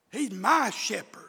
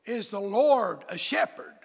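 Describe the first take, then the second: First: MY leaned on as the key word; stress on MY. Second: Said in the usual way. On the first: Shown as a demonstration. Preacher making the Lord personal, stress on MY. Contrast of a and my shepherd.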